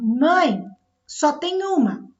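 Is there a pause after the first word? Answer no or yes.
yes. There is a pause after the first word. Someone is calling their mother to tell her there is only one. "Aqui eu tenho um vocativo"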